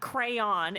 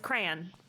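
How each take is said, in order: First: The word is said with two syllables. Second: The word is said with one syllable. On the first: The speaker calls it wrong. "it's not crayon" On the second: The speaker calls it right. "One syllable"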